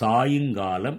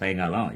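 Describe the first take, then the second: First: The second syllable has a 'yu' sound. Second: The second syllable is reduced to a quick 'ya'. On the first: The sun is leaning to one side. The speaker calls it right. "அதை சாயுங்காலம் என்று சொல்லலாம்" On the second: It is the casual everyday form. The speaker calls it wrong. "பேச்சு வழக்கிலே அதை வேகமாக"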